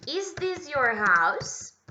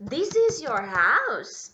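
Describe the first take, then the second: First: Slow, higher, louder "Is this your house?" with a rise; corrected question, slow and high. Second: Slow, louder "This is your house?"; wrong question order, slow and loud. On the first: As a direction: model the right word order. (pergunta corrigida, mais aguda e devagar) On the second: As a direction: read the wrong order for correction. (pergunta errada, devagar e alta) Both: Shown as a demonstration. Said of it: "Verbo to be antes do pronome".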